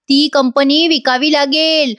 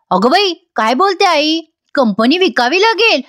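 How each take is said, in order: First: Slow, drawn-out pronouncement; slow warning. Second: Higher-pitched, taken-aback echo question; startled disbelief. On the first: Grandmother warns Sumitra about losing the company, slow warning. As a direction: state it slowly as a warning. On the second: Sumitra questions her mother about selling the company, startled disbelief. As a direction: repeat it in mild disbelief, pitch raised. Sumitra reacts to grandmother's warning. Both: Retold or imitated.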